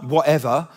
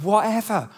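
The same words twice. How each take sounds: First: "whatever" with a sassy lift at the end; dismissive WHATEVER. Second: Sincere "whatever" falling firmly at the end; mean "whatever" as a wholehearted yes; willing WHATEVER. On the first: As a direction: brush it off with a rising "whatever". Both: Shown as a demonstration. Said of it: "Not whatever, but whatever".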